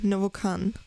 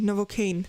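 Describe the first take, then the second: First: The last syllable rhymes with can. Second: The last syllable rhymes with rain. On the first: The speaker calls it wrong. "so is it Novocan or Novocaine?" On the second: The speaker calls it right. "as in rain"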